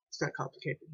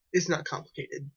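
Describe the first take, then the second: First: Softer, dropping the repeat away; quiet repeat. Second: Said in the usual way. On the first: Real, not acted. Repeating it to viewers, softly to himself. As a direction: let the echo fall soft to himself.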